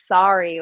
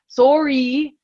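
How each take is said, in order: First: The first vowel sounds like 'ah'. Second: The first vowel sounds like 'oh'. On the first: The speaker calls it right. "Americans are more sorry like with an A" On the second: The speaker calls it wrong. "don't say sor sorry"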